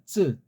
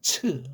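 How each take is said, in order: First: The consonant is tense, with no breathy burst. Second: The consonant is aspirated, with a breathy burst. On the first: The speaker calls it right. "쯔예요" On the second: The speaker calls it wrong. "어떤 사람은 츠 뭐 이러는데"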